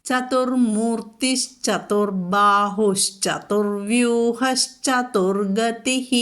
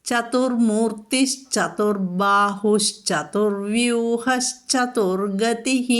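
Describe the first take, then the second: No difference in how they are said.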